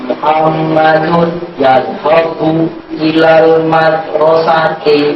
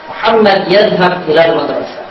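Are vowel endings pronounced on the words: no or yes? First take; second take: yes; no. First: The words end with full vowel endings. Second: The words end without any vowel endings.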